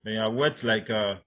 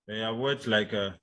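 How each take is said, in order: Both takes have the same delivery.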